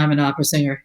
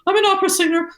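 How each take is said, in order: First: The voice sounds worn out and low in energy. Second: The voice sounds lifted, grand and affected. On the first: The singer is exhausted. "sound like that because they're so tired" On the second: The singer sounds grand and self-important. "very sort of sort of hoity-toity, and the voice is lifted"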